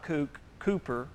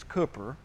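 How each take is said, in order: First: The first vowel is long, like in 'kook'. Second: The first vowel is short, like in 'cook'. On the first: The speaker calls it wrong. "It's not Cooper. ... you don't say kook" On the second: The speaker calls it right. "It's Cooper. ... you say cook"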